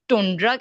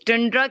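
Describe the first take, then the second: First: The first vowel sounds like 'oo'. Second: The first vowel sounds like 'uh'. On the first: "कुछ लोग टुंड्रा कहते हैं" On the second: "टंड्रा कहते हैं"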